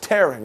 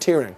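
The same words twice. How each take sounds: First: The vowel rhymes with 'bearing'. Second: The vowel rhymes with 'hearing'. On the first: Something is being ripped apart. The speaker calls it right. "that word is tearing" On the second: Someone is crying. The speaker calls it wrong. "not tearing"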